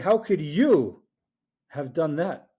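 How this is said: The word 'you' carries the emphasis.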